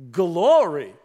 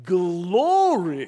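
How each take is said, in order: First: Said in the usual way. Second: Glory drawn out in three syllables, Gal-or-e, high and loud; southern Indiana hallelujah Glory; John McDougall's Glory. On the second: Retold or imitated. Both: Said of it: "like three syllables".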